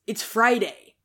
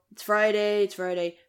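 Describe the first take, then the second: First: FRIDAY said with a firmer push; emphatic "Friday", a bit higher and louder. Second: Said in the usual way. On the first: Acted. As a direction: announce it as news, weight on FRIDAY. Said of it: "but now it's". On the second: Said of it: "It's not just, you know".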